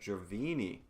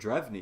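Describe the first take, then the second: First: The name is said with three syllables. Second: The name is said with two syllables. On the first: The speaker calls it wrong. "I've been saying it wrong this whole time" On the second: The speaker calls it right. "or Drevny, excuse me"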